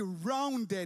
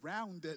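First: It is said in a Jamaican accent. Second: It is said in an American accent. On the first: "my Jamaican" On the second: "I heard that American accent"

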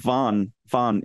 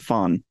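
First: The syllable begins with a V sound. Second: The syllable begins with an F sound. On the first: The speaker calls it right. "So Von instead of Fon" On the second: The speaker calls it wrong. "instead of Fon"

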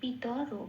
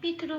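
First: The 't' is said with a full vowel after it. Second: The 't' is said bare, without a vowel. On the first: The speaker calls it right. "তকে পূর্ণরূপে ত বলে উচ্চারিত করতে হবে" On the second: The speaker calls it wrong. "তাই পিতর বলতে পারবো না"

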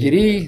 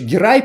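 First: The name is said in its Russianized form. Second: The name is said in its original form. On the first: The speaker calls it wrong. "это по-русски больше" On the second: The speaker calls it right. "ну вообще Герай правильно"

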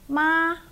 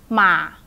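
First: The pitch stays high and level throughout. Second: The pitch is short and low. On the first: "So the high flat tone" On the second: "And a short low one"

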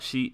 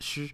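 First: The vowel after the sh sound is heard. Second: The vowel after the sh sound is dropped.

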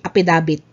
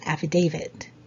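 First: The word is said with p and b sounds. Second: The word is said with f and v sounds. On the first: The speaker calls it wrong. "So it's not apidabit" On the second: The speaker calls it right. "It's affidavit"

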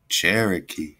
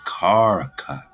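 First: The word begins with a ch sound. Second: The word begins with a k sound. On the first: The speaker calls it wrong. "we don't say ch-ch-ch" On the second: The speaker calls it right. "instead of that CH, just put a K right there"

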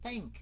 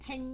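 First: The first sound is th, with the tongue out. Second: The first sound is a plain t. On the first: The speaker calls it right. "La lưỡi ra" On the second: The speaker calls it wrong. "Không phải thank nha"

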